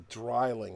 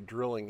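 First: The first vowel sounds like the one in 'dry'. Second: The first vowel sounds like the one in 'drill'. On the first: The speaker calls it right. "It's a dryling, like Einzweig dry" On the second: The speaker calls it wrong. "it's not really a drilling"

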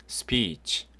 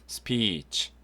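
No difference in how they are said.

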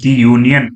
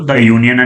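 First: The article is said with a long 'ee' vowel. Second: The article is said with a short 'uh' vowel. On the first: The speaker calls it wrong. "ది union అని పలకకూడదు" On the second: The speaker calls it right. "ద union అని పలకాలి"

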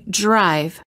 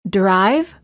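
First: The D before the R sounds almost like j. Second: The D before the R sounds like a plain D. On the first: The speaker calls it right. "we say drive" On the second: The speaker calls it wrong. "Instead of saying drive"

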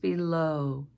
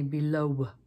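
First: The word ends on a plain O vowel with no W sound. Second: The word ends with an audible W sound after the O. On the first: The speaker calls it right. "It's just below with that O as our ending sound" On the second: The speaker calls it wrong. "We don't say below"

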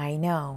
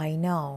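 No difference in how they are said.

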